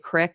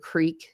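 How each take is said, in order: First: The word is said with a short 'i' vowel. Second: The word is said with a long 'ee' vowel. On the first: The speaker calls it wrong. "people say "crick"" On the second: The speaker calls it right. "instead of "creek.""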